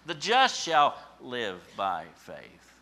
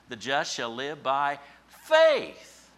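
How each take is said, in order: First: The stress is on the word just. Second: The stress is on the word faith.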